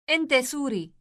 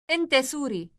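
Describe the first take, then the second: The two takes are said the same way.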